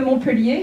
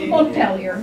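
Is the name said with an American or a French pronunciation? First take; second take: French; American. First: The name is said with French pronunciation. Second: The name is said with American English pronunciation.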